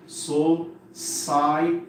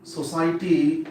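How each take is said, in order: First: "society" very slowly in separate syllables. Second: Said in the usual way. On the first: Shown as a demonstration. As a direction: break "society" into so-ci-e-ty with gaps. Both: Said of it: "First divide the word into syllables".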